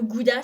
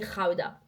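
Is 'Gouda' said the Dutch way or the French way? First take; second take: French; Dutch. First: It is said with a French pronunciation. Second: It is said with a Dutch pronunciation. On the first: "le Gouda" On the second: "ça se dit"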